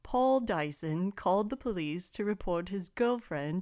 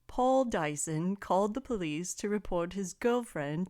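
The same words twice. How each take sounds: First: It is spoken in a put-on British accent. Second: The same.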